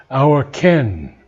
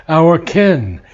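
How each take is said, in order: No difference in how they are said.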